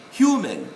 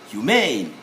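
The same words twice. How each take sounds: First: HUman, stressed first syllable. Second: Humane as hu-MAIN, second syllable stressed. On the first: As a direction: punch HU in Human, let -man fall. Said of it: "We stress on the first syllable". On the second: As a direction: hit the long -MANE in humane. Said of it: "we stress on the second syllable". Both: Shown as a demonstration.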